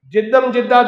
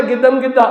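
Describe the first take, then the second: First: Said in the usual way. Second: "گدم گدہ" with hard g in place of j; Egyptian pronunciation. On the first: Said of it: "گاف کو جیم بولتے ہیں". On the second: Retold or imitated. Imitating an Egyptian guide reciting a prayer, "گدم گدہ" with hard g. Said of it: "وہ ایسی تو مصری کا pronunciation ہے".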